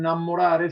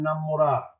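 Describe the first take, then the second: First: It ends with the full -are, standard Italian. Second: It ends clipped in -á, Romanesco dialect.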